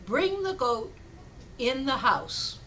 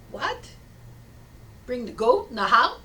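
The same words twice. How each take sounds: First: Measured acted command, "goat" and "house" set apart; deliberate instruction. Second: Acted disbelief, loud swooping rise on "goat" and "house"; incredulous question. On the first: Rabbi telling villager his odd remedy, deliberate instruction. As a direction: hand down the order slowly, with a pause midway. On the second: Villager questioning rabbi's odd advice, incredulous. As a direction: echo it back as a baffled question.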